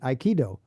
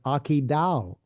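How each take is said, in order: First: It starts with 'eye' and ends in 'doe'. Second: It starts with 'ah' and ends in 'dow'. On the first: The speaker calls it wrong. "as they pronounce it incorrectly" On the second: The speaker calls it right. "the martial art of Akidao"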